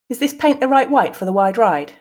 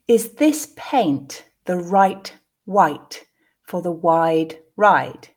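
First: The sentence is said at a natural pace. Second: The sentence is said slowly. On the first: "the second two at a more natural pace" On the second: "the first time slowly"

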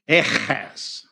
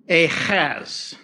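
No difference in how they are said.

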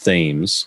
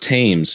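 First: The word begins with a 'th' sound. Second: The word begins with a plain 't' sound. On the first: This is how the spelling suggests it is said. The speaker calls it wrong. "when I was reading it, I thought it was Thames" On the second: This is how the name is actually said. The speaker calls it right. "no, it's Thames"

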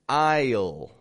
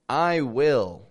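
First: One contracted word with a stretched vowel. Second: Two full words with a full vowel in will. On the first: "or instead of saying" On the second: "Instead of saying"

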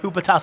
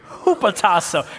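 First: It is said weakly, with little energy. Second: It is said strongly, with a lot of energy. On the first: The speaker is not committed to saying it. The speaker calls it wrong. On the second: The speaker is fully committed to saying it. The speaker calls it right.

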